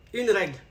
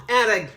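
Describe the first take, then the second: First: Quiet self-correction to "une règle"; corrected gender. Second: "un règle", spoken as masculine "un"; wrong gender. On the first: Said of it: "Non, un règle". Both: Shown as a demonstration.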